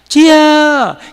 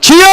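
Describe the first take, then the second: First: It is said as a soft, weak whimper. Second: It is cried out loudly and forcefully.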